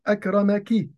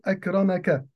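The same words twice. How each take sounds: First: "أكرمك" said akramaki, ending in a kasra on the kaf; "أكرمك" with a final ki, addressing a woman; feminine you. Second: "أكرمك" said akramaka, ending in a fatha on the kaf; "أكرمك" with a final ka, addressing a man; masculine you. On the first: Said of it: "مفرد مؤنث فأقول". ("أكرمكِ" بكسر الكاف للمؤنث) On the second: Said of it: "مفردا مذكرا فأقول". ("أكرمكَ" بفتح الكاف للمذكر) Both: Shown as a demonstration.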